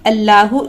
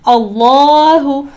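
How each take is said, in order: First: The L is light and thin. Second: The L is heavy and thick. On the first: The speaker calls it wrong. "इस तरीके से नहीं पढ़े" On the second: The speaker calls it right. "तफखीम करनी है, मोटा करके पढ़ना है"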